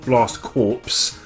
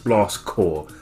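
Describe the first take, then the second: First: The last word ends with a 'ps' sound. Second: The last word ends without a 'ps' sound. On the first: The speaker calls it wrong. "It's not Blast Corps as the title and the, the way it's spelled would actually have you think it is" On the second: The speaker calls it right. "it's Blast Corps. Think of it as the Green Lantern Corps"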